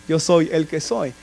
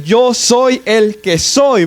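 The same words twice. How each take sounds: First: Hushed and lower, a little slow; soft low quote. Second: Very slow, weighty words; slow solemn God voice. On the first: Preacher quietly restating God's name to the congregation, hushed. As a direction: say it softly as a reverent aside. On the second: Preacher voicing God to the church, drawn out and solemn. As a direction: let each word land like God naming himself. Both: Acted.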